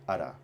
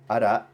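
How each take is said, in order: First: The word ends on an open vowel. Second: The word ends with a glottal stop. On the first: This is the dialect form. The speaker calls it right. "just without the hamza" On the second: This is the original standard form. The speaker calls it wrong. "not ara"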